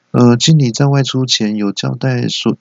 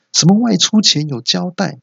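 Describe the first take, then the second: First: Said in the usual way. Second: 外出前有交代 squeaked much higher, mocking; mocking repeat. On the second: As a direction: throw 外出前有交代 back in a shrill mocking voice. (尖声嘲讽重复"外出前有交代")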